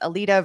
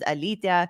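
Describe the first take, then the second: First: The name is said with an American pronunciation. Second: The name is said with a Lithuanian pronunciation. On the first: "as an American" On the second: "as a Lithuanian"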